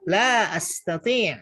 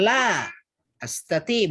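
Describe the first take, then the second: First: The two words are run together without a break. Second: The two words are said separately, with a break. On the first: The speaker calls it right. "tapi bacanya langsung" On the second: The speaker calls it wrong. "bukan la astati, bukan gitu"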